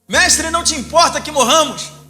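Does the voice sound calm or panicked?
panicked. It is cried out in a tense, panicked voice.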